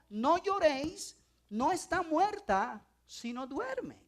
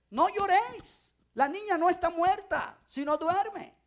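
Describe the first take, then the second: First: Slow, gentle words of Jesus. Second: Louder and higher, a firm command; firm declaration. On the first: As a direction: say it slowly, calmly, to comfort them. Jesus quoted, first time. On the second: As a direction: proclaim it with authority over the mourners. Jesus quoted, second time. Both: Acted.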